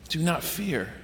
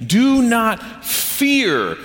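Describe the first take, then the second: First: "Do not fear" said much softer, settling down; soft reflective. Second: Each word of "Do not fear" drawn out slowly, "Do" highest; slow emphatic command. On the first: Pastor quietly sums up the command, soft and reflective. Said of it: "quiet restatement". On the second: Pastor stresses the Bible's repeated command, slow and emphatic. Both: Shown as a demonstration.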